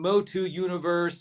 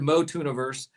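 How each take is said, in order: First: It is said as two separate words. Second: It is said as one blended word. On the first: The speaker calls it wrong. "People have been saying Motu Universe, and they can't even talk right" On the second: The speaker calls it right. "So it's just one word"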